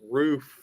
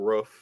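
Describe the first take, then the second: First: The word is pronounced the standard way. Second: The word is pronounced with a regional vowel. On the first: "And roof is still" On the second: "still roof to me"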